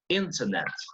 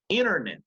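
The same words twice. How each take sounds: First: The T sound is clearly pronounced. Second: The T sound is dropped after the N. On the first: This is the British English pronunciation. "So in British English" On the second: This is the American English pronunciation. "But in American English"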